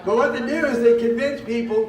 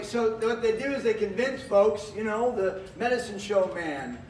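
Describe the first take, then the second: First: Booming into the mic, a bit too loud; projecting hard before being turned down; loud pitchman delivery. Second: Measured showman voice; theater voice. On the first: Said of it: "turn me down a little bit". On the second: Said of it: "I'll use my theater voice". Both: Real, not acted.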